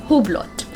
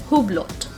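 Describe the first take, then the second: The two takes are said the same way.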